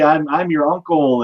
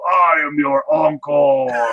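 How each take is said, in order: First: It is said in an ordinary friendly voice. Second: It is said in a scary monster voice. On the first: "instead of being like" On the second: "they give him like scary monster voice"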